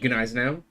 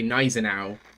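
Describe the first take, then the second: First: The initial G is sounded softly. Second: The initial G is silent. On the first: "you would pronounce the G but like softly" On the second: "more of a Slavic approach of just missing the G entirely"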